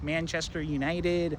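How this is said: It is said in an American accent. "Americans are like"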